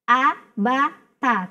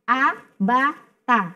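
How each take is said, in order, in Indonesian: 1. Vokalnya dibiarkan pendek dan tegas. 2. Vokalnya dibiarkan pendek dan tegas.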